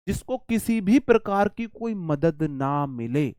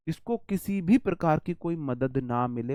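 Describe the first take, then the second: First: Slow, word by word, each word spaced out; slow dictation. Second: Said in the usual way. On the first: Shown as a demonstration. Teacher dictating the meaning slowly to the students. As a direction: spell it out slowly so the class can write it down.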